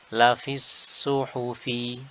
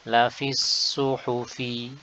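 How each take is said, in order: No difference in how they are said.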